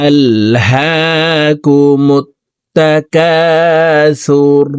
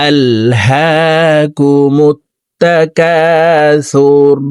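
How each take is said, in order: Both takes have the same delivery.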